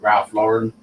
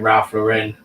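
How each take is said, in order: First: Lauren is said the American way. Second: Lauren is said in a non-American way. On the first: This is how Americans say it. "it's usually American people and they call it Ralph Lauren" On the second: This is how the speaker has always said it. "thirty years I've been saying Ralph Lauren"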